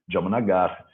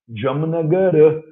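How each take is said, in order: First: The word ends on the r consonant. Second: The word ends with a final a vowel. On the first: This is how people say it in everyday use. "Mas como você fala Jamnagara na prática?" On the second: This is the name as it is written. "a cidade chama Jamnagara"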